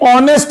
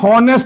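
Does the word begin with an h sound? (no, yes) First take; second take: no; yes. First: The word starts with a vowel, no h sound. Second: The word starts with an audible h sound. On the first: The speaker calls it right. "ये ऑनेस्ट याद रहे" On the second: The speaker calls it wrong. "हॉनेस्ट नहीं है, ह हरियाणा वाला ह नहीं है"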